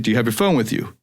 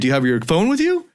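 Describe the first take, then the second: First: The voice falls at the end. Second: The voice rises at the end.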